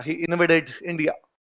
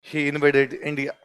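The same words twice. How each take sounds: First: Slow and soft; teacher dictating slowly; slow dictation. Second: Slow and soft, word by word; teacher repeating the line for notes; slow dictation repeated. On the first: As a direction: dictate it word by word. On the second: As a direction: say it once more for writing. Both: Shown as a demonstration. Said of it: "लिख लो".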